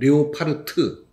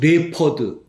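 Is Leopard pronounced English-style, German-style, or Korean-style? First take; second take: German; English. First: It is said German-style, ending in 'part'. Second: It is said like English 'leopard', two syllables. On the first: "독일어로 뭐 레오파르트" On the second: "레퍼드 영어로"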